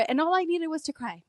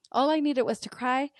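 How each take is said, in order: First: I said high and falling; all I needed was to cry, voice dropping at the end; emphatic first take. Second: I stressed, rising at the end; rising repeat. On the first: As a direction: lift I and let cry fall away. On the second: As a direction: repeat it with the tune going up on cry. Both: Real, not acted.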